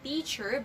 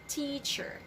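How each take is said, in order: First: The starting T sound is weak and soft. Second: The starting T sound is strong and forceful. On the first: The speaker calls it wrong. "do not say teacher" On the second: The speaker calls it right. "you have to pronounce it very strongly"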